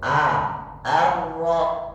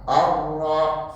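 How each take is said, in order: First: The first vowel is thin, like 'a'. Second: The first vowel is thick, like 'o'. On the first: The speaker calls it right. "huruf A yang tadinya tipis" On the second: The speaker calls it wrong. "Or-ro salah"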